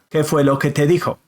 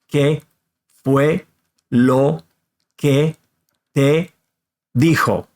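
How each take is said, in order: First: All the words run together quickly. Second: Each word is said separately and clearly. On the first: "all six words together" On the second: "say each one of the words separately and clearly"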